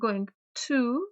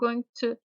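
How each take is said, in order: First: It is said fully, each word pronounced clearly. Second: It is reduced, run together like gonna. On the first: "Немаме" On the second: "туку going to изговарајќи ја реченицата"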